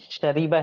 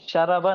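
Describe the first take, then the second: First: The vowel after the 'r' is 'i'. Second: The vowel after the 'r' is 'a'. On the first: The speaker calls it right. "बल्कि शरीबा है इसका फेले माजी" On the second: The speaker calls it wrong. "ये शरबा नहीं है"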